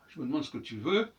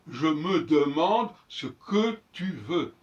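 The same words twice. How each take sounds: First: Consonants run together with the small vowels dropped. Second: Every small vowel between consonants is fully pronounced. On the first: The speaker is at ease in the mother tongue, like a master. "relier entre elles les consonnes sans aucun intermédiaire vocalique" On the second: The speaker is weighed down by written language, like a slave. "Et l'autre va dire"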